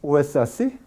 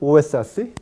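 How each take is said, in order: The two takes are said the same way.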